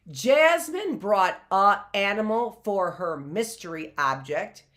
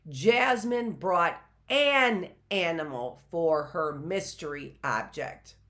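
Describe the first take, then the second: First: "a" said unlinked before "animal", no n; example with "a". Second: "an" set apart and stressed before "animal". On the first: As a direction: read it with a bare "a" before "animal". Grammar example, article wrong. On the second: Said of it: "The object would be an". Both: Shown as a demonstration.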